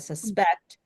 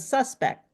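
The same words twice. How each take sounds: First: The stress is on the second syllable. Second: The stress is on the first syllable. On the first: It is a verb meaning to believe something. "that's an action ... verb, it's the second syllable" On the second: It is a noun naming a person. "the person ... noun, it's the first syllable"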